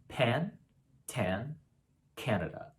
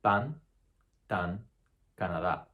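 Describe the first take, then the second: First: Pan, tan, Canada with a puff of air; aspirated English. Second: Pan, tan, Canada with no puff of air; unaspirated Spanish. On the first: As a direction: blow air after each stop. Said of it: "we typically aspirate these sounds". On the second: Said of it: "take that away". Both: Shown as a demonstration.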